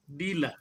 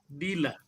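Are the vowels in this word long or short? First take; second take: short; short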